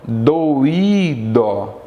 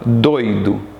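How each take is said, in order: First: The o and i split into two syllables. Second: The o and i blend into one syllable. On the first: "quando eu falo doído, eu separo" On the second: "Doi está na mesma sílaba"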